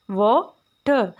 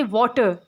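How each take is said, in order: First: water broken in two, a clear pause between the syllables. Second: Said in the usual way. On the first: Shown as a demonstration. Teacher breaking a word into syllables, water said slowly in two pieces. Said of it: "जब हम उसको तोड़ते हैं". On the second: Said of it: "यानी एक word की जो pronunciation होती है".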